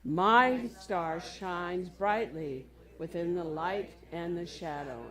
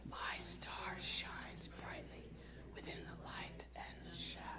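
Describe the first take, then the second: First: It is said in a normal voice. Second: It is whispered softly.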